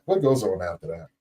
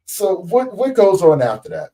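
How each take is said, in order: First: Low, settled echo of the question; lowered repeat question. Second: High, loud question falling at the end; raised, emphatic question. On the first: Host gently prompting patient to continue, lowered repeat question. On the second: Host prompting patient for the next step, raised emphatic question. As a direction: push the question out high and strong. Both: Real, not acted.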